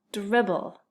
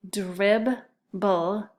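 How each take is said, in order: First: Said in the usual way. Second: DRIBBLE in two separate beats, DRIB, pause, BLE; split into syllables. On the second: Shown as a demonstration. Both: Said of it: "listen closely to those syllables".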